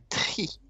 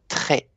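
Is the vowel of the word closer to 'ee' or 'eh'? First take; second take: ee; eh. First: The vowel sounds like a short, clear 'ee'. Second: The vowel sounds like an open 'eh'. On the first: The speaker calls it right. "C'est la lettre I" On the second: The speaker calls it wrong. "vous avez prononcé un peu très"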